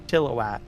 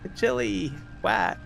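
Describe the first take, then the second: First: The middle vowel is reduced and barely heard. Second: The middle vowel is full, like chili whack. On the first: This is how locals say the name. The speaker calls it right. "not so much of an emphasis on I, Can't even hear the I when I pronounce it" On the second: This is how outsiders say the name. The speaker calls it wrong. "there's a lot of people they'll say chili whack"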